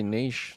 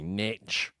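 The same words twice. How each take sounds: First: It is said the British way, not rhyming with itch. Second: It is said the American way, rhyming with itch. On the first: The speaker calls it right. "why wouldn't you just say niche?" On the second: The speaker calls it wrong. "North Americans say niche, which I really don't like"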